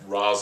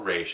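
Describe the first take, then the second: First: The name is said with a final 'z' sound. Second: The name is said with a final 'sh' sound. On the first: The speaker calls it right. "I like Ra's al Ghul better" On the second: The speaker calls it wrong. "or Raish as they pronounce it in this"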